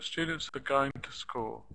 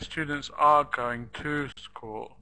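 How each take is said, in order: First: The function words are shortened to a schwa. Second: The function words keep their full vowels. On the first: The speaker calls it right. "the function words are reduced and made shorter" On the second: The speaker calls it wrong. "I wouldn't say"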